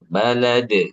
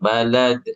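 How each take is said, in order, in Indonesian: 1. Konsonan terakhir punya pantulan yang kuat dan jelas. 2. Konsonan terakhir punya pantulan yang lemah dan samar. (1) "jelaskan aja" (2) "pantulannya jangan kecil"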